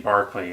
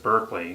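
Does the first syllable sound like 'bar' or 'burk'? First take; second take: bar; burk. First: The first syllable sounds like 'bar'. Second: The first syllable sounds like 'burk'. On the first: This is how the man's own name is pronounced. "it'd be Barclay, I believe is how you would pronounce his name" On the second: This is how people in the speaker's country say it. "in our country here we, we pronounce it as Berkeley"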